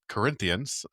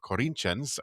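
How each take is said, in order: First: The name is said with an English pronunciation. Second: The name is said with a Brazilian Portuguese pronunciation.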